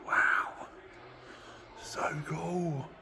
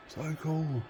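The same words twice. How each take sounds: First: Breathless whispered wonder; awed whisper. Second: Said in the usual way. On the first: Real, not acted. Gazing at the Jaguar up close, whispered awe. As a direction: whisper it like the car might hear.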